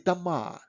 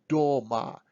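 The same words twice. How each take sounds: First: The first vowel is reduced to an 'a' sound. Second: The first vowel is a full 'o' sound. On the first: The speaker calls it right. "we say" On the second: The speaker calls it wrong. "we don't say"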